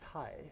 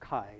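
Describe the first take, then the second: First: The name begins with a ts sound. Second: The name begins with a k sound. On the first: "we uh, pronounce as a Tsai" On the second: "it's okay if you call Kai using English pronunciation"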